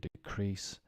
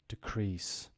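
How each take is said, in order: First: The stress is on the second syllable. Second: The stress is on the first syllable. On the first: It is used as a verb. "to decrease" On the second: It is used as a noun. "think of it now as nouns"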